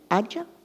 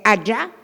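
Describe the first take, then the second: First: The pitch rises like a question. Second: The pitch does not rise like a question. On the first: It means warrior. "como se eu estivesse fazendo uma pergunta" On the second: It means dog. "é cachorro?"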